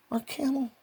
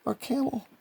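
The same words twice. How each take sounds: The two takes are said the same way.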